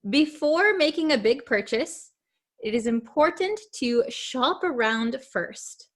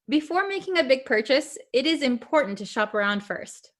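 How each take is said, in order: First: The sentence is read at a slower pace. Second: The sentence is read at a quicker pace. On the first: "I'll read it a little bit slowly" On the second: "I'm going to say it a little bit quickly now"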